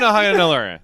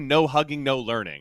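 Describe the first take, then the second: First: The words are mumbled and run together. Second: Each word is said clearly and separately. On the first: The speaker calls it wrong. "I always like mumble through it" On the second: The speaker calls it right. "I want to start enunciating that"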